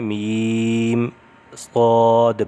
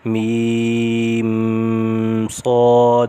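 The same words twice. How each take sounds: First: The meem is plain, without a held nasal sound. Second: The meem is held with a nasal sound. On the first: The speaker calls it right. "यहाँ पे गुन्ना नहीं होगा" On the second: The speaker calls it wrong. "ये पढ़ना गलत है"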